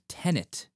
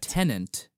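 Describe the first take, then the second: First: It is said like tenet, with no extra n. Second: It is said like tenant, with an extra n. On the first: The speaker calls it right. "please be sure that you're pronouncing it Tenet" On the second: The speaker calls it wrong. "not Tenant, because Tenant is not a palindrome"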